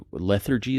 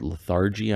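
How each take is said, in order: First: Lethargy stressed on the first syllable, LETH-er-jee; trial pronunciation. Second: Lethargy stressed on the second syllable, luh-THAR-jee; alternative pronunciation. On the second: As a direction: say lethargy with an open AR in the middle. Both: Shown as a demonstration. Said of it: "how to pronounce that word".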